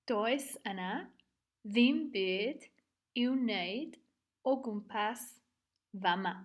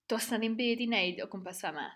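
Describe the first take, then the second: First: It is said slowly and fully. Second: It is said at a medium pace.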